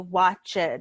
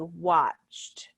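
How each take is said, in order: First: The ending is said as an extra syllable. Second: The ending joins the word in one syllable. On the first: The speaker calls it wrong. "we don't say watched" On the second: The speaker calls it right. "It's a single syllable"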